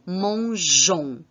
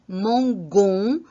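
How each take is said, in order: First: The consonant is a soft j sound. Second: The consonant is a hard g sound. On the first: The speaker calls it right. "et non mangeons" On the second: The speaker calls it wrong. "la prononciation serait mangon"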